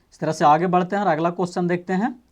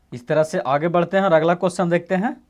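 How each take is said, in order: No difference in how they are said.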